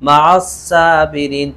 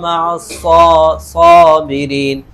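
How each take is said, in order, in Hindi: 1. s ध्वनि पतली और हल्की है। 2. s ध्वनि भरी हुई और भारी है। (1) "तो नहीं पढ़ सकते" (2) "मुंह भर जाता है उसमें हमारा पूरा"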